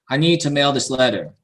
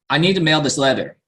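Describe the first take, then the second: First: The sentence is said slowly, with full to. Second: The sentence is said quickly, with reduced to. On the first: "So I'll say it a little bit more slowly" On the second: "If I say it very quickly"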